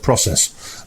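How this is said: The word is said with an American pronunciation. "they say the word process"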